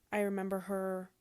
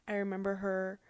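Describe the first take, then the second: No difference in how they are said.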